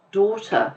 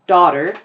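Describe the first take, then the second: First: Daughter with rounded British vowel, no final r; British accent. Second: Daughter with a strong American r, louder; American accent. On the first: Teacher contrasts two accents on one word, British accent. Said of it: "pronounced differently". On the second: Teacher contrasts two accents on one word, American accent. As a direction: hit daughter in clear American. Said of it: "It's the same word". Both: Shown as a demonstration.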